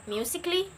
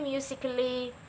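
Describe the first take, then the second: First: The 'a' in the ending is left silent. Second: The 'a' in the ending is clearly pronounced. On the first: The speaker calls it right. "Cut A off. So you must pronounce it like" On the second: The speaker calls it wrong. "I'm not pronouncing that like"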